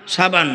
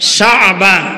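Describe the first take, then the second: First: It is said plainly, like the word for soap. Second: It has a throaty catch in the middle. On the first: It names the soap used for bathing. The speaker calls it wrong. "শাবানটা তো গোসল করে, শাবান না" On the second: It names the month. The speaker calls it right. "মাঝখানে একটা আইন আছে"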